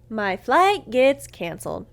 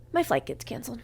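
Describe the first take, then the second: First: "My flight gets canceled" slow and loud; drawn-out emphatic repeat. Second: Said in the usual way. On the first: Real, not acted. Same line repeated for emphasis.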